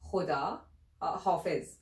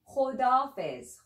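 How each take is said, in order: First: All syllables are said fully and carefully. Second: The words are run together into a shorter form.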